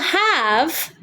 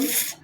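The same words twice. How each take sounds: First: Have is said fully with a clear h and v. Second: Have is reduced to a weak of sound. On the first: Have is the main verb meaning to own. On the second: Have is a helper forming a perfect tense.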